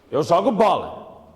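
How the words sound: It is an exclamation, said forcefully and commandingly.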